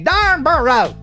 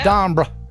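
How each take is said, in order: First: It is said the American way, three syllables. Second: It is said the British way, two syllables.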